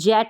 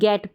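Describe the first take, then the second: First: The word begins with a soft J sound. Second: The word begins with a hard G sound. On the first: The speaker calls it wrong. "इसको जेट नहीं पढ़ते हैं" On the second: The speaker calls it right. "इसको हम गेट पढ़ते हैं"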